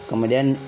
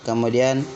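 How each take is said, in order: No difference in how they are said.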